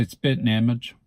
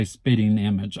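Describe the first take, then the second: First: Spitting as "spit'n"; own pronunciation. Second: Spitting with the -ing sounded; rejected pronunciation. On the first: Speaker showing their own way, spitting as spit'n. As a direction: say spitting image with the g dropped, "spit'n image". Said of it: "I would say spitting image". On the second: Speaker showing what they wouldn't say, spitting with -ing. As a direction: say spitting as "spit-ting". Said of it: "I don't think I would say". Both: Shown as a demonstration.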